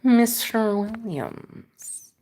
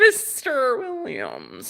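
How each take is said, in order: First: Very slow, soft, drawn-out Mister Williams; Matrix agent voice. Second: Slow, drawn-out menacing Mister Williams; Matrix agent voice. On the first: Repeating a viewer's name in a slow agent voice. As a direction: savor each syllable like a villain. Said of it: "the accents you do". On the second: Teasing a viewer by name in a slow agent voice. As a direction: draw out the name like the Matrix villain. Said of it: "You sound like that guy from The Matrix". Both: Pretend.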